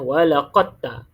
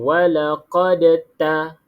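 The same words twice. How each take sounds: First: The d merges completely into the following t. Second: The d is sounded separately with a bounce. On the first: The speaker calls it right. "ini bacaan yang betul lah" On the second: The speaker calls it wrong. "itu dah salah dah sebab dia bunyikan huruf da tu, qalqalah da"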